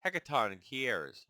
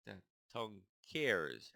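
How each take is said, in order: First: "Hecatoncheires" said slowly and firmly as the fix; slow, fixed pronunciation of "Hecatoncheires"; corrected try. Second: "Hectatoncheires" sounded out slowly, syllable by syllable; a careful first attempt at "Hectatoncheires"; first stumbling try. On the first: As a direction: land the corrected "Hecatoncheires" with confidence. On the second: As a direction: feel your way slowly through "Hectatoncheires". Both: Shown as a demonstration. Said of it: "that's a big one".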